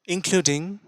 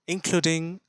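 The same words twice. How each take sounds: The two takes are said the same way.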